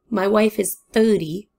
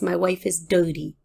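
First: The last word starts with a th sound. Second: The last word starts with a d sound. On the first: Her age is thirty. The speaker calls it right. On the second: She sounds unclean. The speaker calls it wrong.

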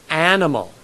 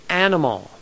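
Both takes have the same delivery.

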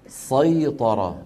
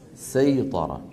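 First: The s is heavy and emphatic, like sad. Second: The s is light and plain, like sin. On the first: "ويقولون سيطر" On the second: This is the original form of the word. "بدل سيطر"

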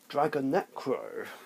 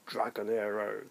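First: The name is said with a k sound. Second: The name is said without a k sound. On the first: The speaker calls it right. "No, Dragonecro" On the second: The speaker calls it wrong. "I've been saying it wrong this whole time"

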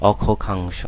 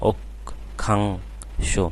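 First: The first k sound is followed by a vowel. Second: The first k sound is bare, with a stop. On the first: The speaker calls it wrong. "যদি হস্চিহ্ন না দাও তাহলে উচ্চারণ কিন্তু ভিন্ন হয়ে যাবে" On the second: The speaker calls it right. "এই যে আটকে যাচ্ছে না"

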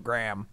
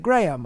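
First: The name is said the Midwestern way. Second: The name is said the standard way. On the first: The speaker calls it wrong. "I go Graham. That's my Midwestern. I mispronounce my own name" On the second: The speaker calls it right. "I don't say Graham"

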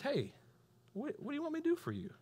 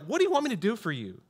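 First: It is said slowly and gently. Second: It is said fast and impatiently.

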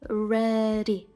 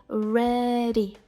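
Both takes have the same delivery.

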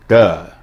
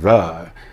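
First: The word starts with a hard d sound. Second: The word starts with a soft th sound. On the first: The speaker calls it wrong. "or duh instead of the" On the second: The speaker calls it right. "instead of the"

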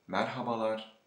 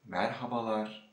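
The two takes are said the same way.

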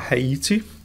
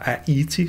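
First: The word begins with an audible H sound. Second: The word begins with no H sound.

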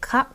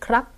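First: The word is shortened, with no r sound. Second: The word keeps the full kr cluster sound. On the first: This is the casual everyday form. "일상적으로 대화를 할 때 태국인들이 크랍이라고 안 하고 캅이라고 줄여서 말하는" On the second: This is the standard form. "표준 발음은 크랍이 맞다"

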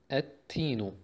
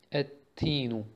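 No difference in how they are said.

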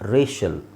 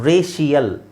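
First: The ending is a short '-shal' sound. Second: The ending has an extra 'ee-ya' sound. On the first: The speaker calls it right. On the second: The speaker calls it wrong.

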